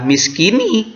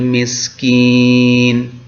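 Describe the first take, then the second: First: The word ends with a vowel sound. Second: The word ends with a consonant sound. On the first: The speaker calls it wrong. "tetapi tidak dibaca miskini" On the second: The speaker calls it right. "tetapi diwakofkan"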